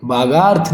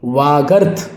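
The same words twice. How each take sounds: First: बागार्थ with b and long gaa; wrong pronunciation. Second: वागर्थ with v and short ga; correct pronunciation. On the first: Teacher rejecting the error, बागार्थ with b. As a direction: say बागार्थ as "baa-gaarth". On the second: Teacher correcting it, वागर्थ with v. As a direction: say वागर्थ as "vaa-garth". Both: Shown as a demonstration. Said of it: "बागार्थ नहीं".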